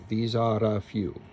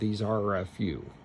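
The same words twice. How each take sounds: First: The R is a quick tapped sound. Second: The R is a long, drawn-out sound. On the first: The speaker calls it right. "Flip the R here" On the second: The speaker calls it wrong. "Rather than"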